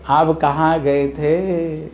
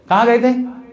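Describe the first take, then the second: First: It sounds knowing, as if the answer is known. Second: It sounds accusing and disapproving.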